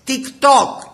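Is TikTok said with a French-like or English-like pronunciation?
French-like. It is pronounced the French way. The speaker calls it wrong. "Τα λες όλα, λέει, γαλλικά"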